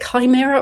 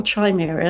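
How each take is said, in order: First: CHIMERA begun with a K sound, "ky-MEER-a"; chimera with hard K. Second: CHIMERA begun with a CH sound, "chy-MEER-a". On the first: Author unsure of the word, chimera said with a hard K. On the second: Author trying the other option, chimera said with a CH. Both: Shown as a demonstration. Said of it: "how to pronounce that word".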